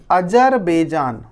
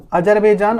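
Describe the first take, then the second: First: Azerbaijan stretched out slowly; slow drawn-out name. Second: Said in the usual way. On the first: Shown as a demonstration. Teacher to pupils, slowly naming a country on the map. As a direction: give Azerbaijan slowly, syllable by syllable. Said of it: "teacher names country slowly".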